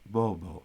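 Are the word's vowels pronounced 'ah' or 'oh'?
oh. Both vowels are rounded 'oh' sounds. This is how western speakers say it. "especially the Western pronunciation, they wouldn't say baba, they would say bobo"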